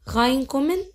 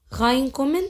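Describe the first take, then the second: No difference in how they are said.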